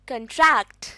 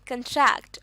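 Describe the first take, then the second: First: The stress is on the second syllable. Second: The stress is on the second syllable.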